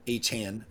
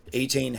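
First: Achane corrected to AY-chan, short A at the end. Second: Achane said AY-chain, both vowels long. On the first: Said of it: "I'm sorry, we're learning how to pronounce". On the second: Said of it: "we're learning how to pronounce his name". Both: Real, not acted.

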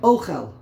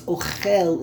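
First: "Ochel" with the first syllable, O, punched loud; stress on first syllable. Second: "Ochel" slow, leaning on the final "chel"; "Ochel" said o-CHEL, last syllable stressed. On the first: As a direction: hit the O of "Ochel" hard and let "chel" fall. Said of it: "The emphasis is on the second to last syllable". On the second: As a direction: land the weight on the end of "Ochel". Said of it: "is Milra". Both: Shown as a demonstration.

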